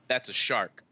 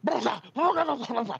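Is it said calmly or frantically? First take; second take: calmly; frantically. First: It is said calmly and evenly. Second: It is said frantically and loudly.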